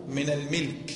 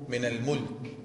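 First: الملك said as "al-milk", with a short i after the m; "min al-milk", the m with a short i vowel, meaning ownership; vowel contrast. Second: الملك said as "al-mulk", with a short u after the m; "min al-mulk", the m with a short u vowel, meaning kingship; vowel contrast. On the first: Teacher stressing الملك as "al-milk" in the contrast, short i. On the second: Teacher contrasting الملك as "al-mulk" against al-milk, short u. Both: Shown as a demonstration. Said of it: "ما الفرق بين الملك والمالك".

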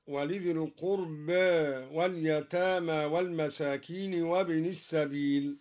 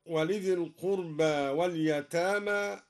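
First: القربى said with its final vowel half-tilted toward e; slight imala on القربى. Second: Said in the usual way. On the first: Shown as a demonstration. Reciter demonstrates the Durī slight tilt on القربى. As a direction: recite القربى ending between a and e. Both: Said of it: "قلل القربى هكذا".

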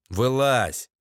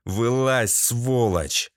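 First: Shouted order. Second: Controlled, menacing order; understated menace; threatening repeat. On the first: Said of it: "крикнул я". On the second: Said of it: "угрожающе повторил я". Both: A narrator's reading.

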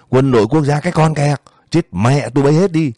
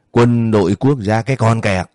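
First: High, angry yell in a narrated quarrel; yelled curse. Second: Mildly raised, angry voice throwing words back; narrated angry comeback, held partly in check; angry retort. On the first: Man cursing the armed guards to their faces, angry yell. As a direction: raise the pitch and curse them out. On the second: Man cursing back at armed guards, angry retort. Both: A narrator's reading. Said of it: "người đó hét lên".

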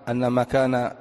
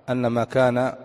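No difference in how they are said.

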